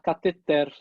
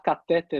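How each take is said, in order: First: The stress is on the last syllable. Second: The stress is on the second-to-last syllable. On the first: The speaker calls it right. "o certo é falar cateter" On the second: The speaker calls it wrong. "assim como falar catéter é errado"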